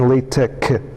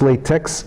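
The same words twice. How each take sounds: First: The word ends with a plain K sound. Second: The word ends with a KS sound. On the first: The speaker calls it right. "So it's tech and LaTeX" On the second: The speaker calls it wrong. "the other one is latex, which it is not"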